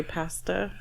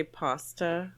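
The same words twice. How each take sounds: First: Pasta with a flat short "a" as in cat; short-A vowel. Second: Pasta with a long "ah", PAH-sta; British-style vowel. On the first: Speaker showing how they always say it, pronunciation demo. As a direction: say pasta as "PASS-tuh". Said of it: "I always say pasta". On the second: Speaker showing the word they never say, pronunciation demo. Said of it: "never say pasta". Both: Shown as a demonstration.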